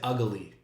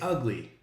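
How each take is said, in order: First: The word is stretched into three syllables. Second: The word is said with two syllables.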